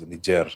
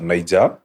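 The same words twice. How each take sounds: First: It is said the official, French-influenced way. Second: It is said the usual local Kenyan way. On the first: This is the country's own pronunciation. The speaker calls it right. "the actual pronunciation is" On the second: This is how people around here say it. The speaker calls it wrong. "Around here, we normally say uh"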